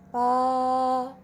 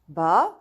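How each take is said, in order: First: It is said with the first tone. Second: It is said with the second tone. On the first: "the first tone" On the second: "Going to the second word"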